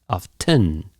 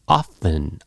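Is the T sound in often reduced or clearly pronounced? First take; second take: pronounced; reduced. First: The T sound is clearly pronounced. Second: The T sound is reduced. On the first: "instead of" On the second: "I reduced the T"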